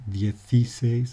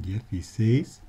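First: Dieciséis stressed on the second-to-last syllable, dieci-SÉ-is; wrong stress. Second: Dieciséis stressed on the last syllable, dieci-SÉIS; correct stress. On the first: Teacher demonstrates the wrong stress on dieciséis. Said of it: "Man sagt aber nicht". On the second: Teacher gives the correct stress on dieciséis. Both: Shown as a demonstration.

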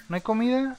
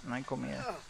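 First: Higher, rising disbelief on comida; surprised question. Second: Flat resigned statement. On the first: Gamer finding no food in the house, high surprised question. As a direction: ask it in disbelief. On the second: Gamer confirming there is no food, low resigned murmur. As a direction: lower and much softer. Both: Shown as a demonstration.

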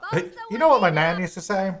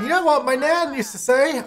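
First: "you know what my nan used to say?" reread as a natural question, stress on "know"; corrected intonation. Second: "You know what my nan used to say?" read with the wrong tune, pitched high on "know"; a sing-song misread of "You know what my nan used to say?"; wrong intonation. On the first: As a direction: redo it with a normal friendly question tune. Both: Shown as a demonstration. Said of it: "I said that with the wrong intonation".

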